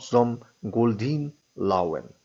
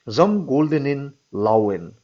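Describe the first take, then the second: First: "Goldeen" with a long ee ending, slowly; slow "Goldeen", drawn "deen" inside the phrase; mistaken German phrase. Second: "Goldenen" given its full -en-en ending, slowly; slow, careful "Goldenen" inside the phrase; corrected German phrase. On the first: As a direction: cite "Zum Goldeen Lauen" slowly, "Goldeen" as two syllables. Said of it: "not Zum Goldeen Lauen". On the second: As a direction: dictate "Zum Goldenen Lauen" slowly, all three syllables of "Goldenen". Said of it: "the whole phrase will therefore read". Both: Acted.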